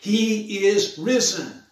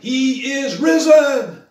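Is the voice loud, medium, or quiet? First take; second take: quiet; loud. First: It is said at the quietest level. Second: It is said at the loudest level.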